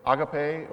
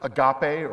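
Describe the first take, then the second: First: Agape said AH-guh-pay; stress on first syllable. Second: Agape said uh-GAH-pay; stress on second syllable. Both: Shown as a demonstration. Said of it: "this pronunciation of the word".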